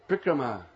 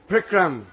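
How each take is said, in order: First: The word ends with a long A vowel. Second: The word ends abruptly without a final vowel. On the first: It means enjoying in the forest of Braj. The speaker calls it right. "It's a long A at the end. You can't cut it off" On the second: It means a hard work schedule. The speaker calls it wrong. "the first, worst one"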